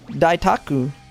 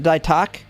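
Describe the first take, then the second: First: The final u vowel is clearly pronounced. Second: The final u vowel is left silent. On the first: "Isn't it Ku?" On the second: "the the U silent"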